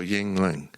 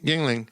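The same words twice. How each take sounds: First: The word has a short pause in the middle. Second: The word is said smoothly without a pause. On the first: "I put a little pause in there" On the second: "He just goes Yuengling"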